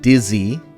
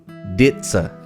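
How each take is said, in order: First: The middle consonant is a plain z sound. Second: The middle consonant is a ts sound. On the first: The speaker calls it wrong. "it's not dizzy" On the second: The speaker calls it right. "It's pronounced ditza"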